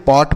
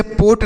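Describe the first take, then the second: First: "पॉट" with an open aw vowel. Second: "पोट" with a round oh vowel; closed o in पोट. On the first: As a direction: say "पॉट" as pawt, not pote. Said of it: "इसे हम पॉट पढ़ेंगे". ("पॉट" खुले ऑ स्वर से) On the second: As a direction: mispronounce pot as "पोट", like pote. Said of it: "इसे पोट नहीं पढ़ेंगे". ("पोट" बंद ओ स्वर से) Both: Shown as a demonstration.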